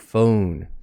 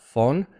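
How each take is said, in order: First: The vowel is long and glides. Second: The vowel is plain, without a glide. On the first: The speaker calls it right. "It's a long glided vowel" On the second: The speaker calls it wrong. "not phone"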